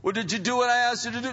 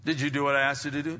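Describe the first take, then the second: First: High, loud, rapid questioning; mock parental demand. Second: Said in the usual way. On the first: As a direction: press the child as an exasperated parent. Acted parent asks, heated repeat.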